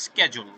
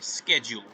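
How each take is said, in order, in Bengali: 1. শব্দটি আমেরিকান উচ্চারণে বলা হয়েছে। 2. শব্দটি আমেরিকান উচ্চারণে বলা হয়েছে।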